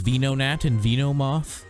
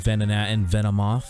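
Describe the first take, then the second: First: The start does not sound like venom. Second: The start sounds like the word venom. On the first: The speaker calls it wrong. "He says" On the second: The speaker calls it right. "it's supposed to be Venonat and Venomoth. It's the based off the word venom"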